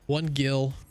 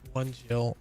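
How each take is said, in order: First: The name starts with a hard G sound. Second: The name starts with a soft J sound. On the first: The speaker calls it right. "that's a Gil, not a Jill" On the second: The speaker calls it wrong. "I said Jill"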